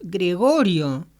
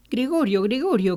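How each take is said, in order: First: Louder, drawn-out call of the name; insistent father's call, slow and loud; raised voice, insisting. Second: Father calling through a door, first try; mildly insistent call. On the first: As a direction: stretch the name out and call it firmly. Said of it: "volvió a insistir alzando la voz". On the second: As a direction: call the name twice, higher at first. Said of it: "llamó". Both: A narrator's reading.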